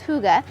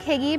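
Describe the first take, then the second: First: The word is said with its native Danish sounds. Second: The word is sounded out the way it is spelled. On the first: The speaker calls it right. "but it's pronounced hygge" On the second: The speaker calls it wrong. "Looks like hygge"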